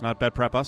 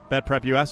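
First: US is spoken as the single word 'us'. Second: US is spoken as two separate letters. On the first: The speaker calls it wrong. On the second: The speaker calls it right. "That's how you say it, right?"

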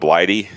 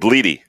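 First: The first vowel sounds like 'eye'. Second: The first vowel sounds like 'ee'. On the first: The speaker calls it wrong. "I was going Blighty" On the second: The speaker calls it right. "Bleedy, that makes sense"

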